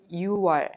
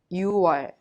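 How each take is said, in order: Both takes have the same delivery.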